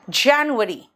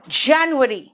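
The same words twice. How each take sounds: No difference in how they are said.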